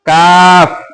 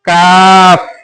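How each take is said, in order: No difference in how they are said.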